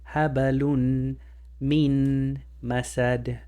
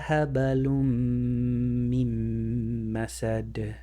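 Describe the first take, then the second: First: A clear N sound comes before the M. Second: The N merges into a doubled M sound. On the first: The speaker calls it wrong. "without the rule of idgham. Right there I did include the N sound" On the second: The speaker calls it right. "the meme has to eat the noon. And that's how you would apply the idgham"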